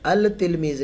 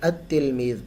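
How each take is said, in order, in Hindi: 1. L का उच्चारण t से पहले साफ़ होता है। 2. L दोहरे t की ध्वनि में मिल जाता है। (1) "अल तिलमीज़ नहीं पढ़ते" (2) "बल्कि अतिलमीज़ पढ़ते हैं"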